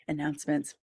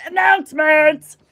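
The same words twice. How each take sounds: First: Soft, lower repeat of ANNOUNCEMENTS; quiet echo. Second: Loud, high, showy segment title; hammed-up announcer call. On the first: Pretend. Host repeating the segment title after the big call, quiet echo. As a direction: drop to a small, quiet ANNOUNCEMENTS. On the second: Host launching the announcements segment, hammed-up call. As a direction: belt out the segment title with mock fanfare.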